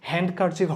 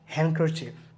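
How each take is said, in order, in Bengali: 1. k-এর আগে d sound উচ্চারিত হয়। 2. k-এর আগে d সাউন্ড নীরব থাকে।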